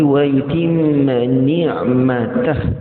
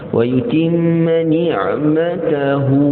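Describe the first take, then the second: First: The phrase stops on a bare h sound. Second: The phrase stops on a final vowel after h. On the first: The speaker calls it right. "matikan ha" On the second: The speaker calls it wrong. "dia berhenti begitu"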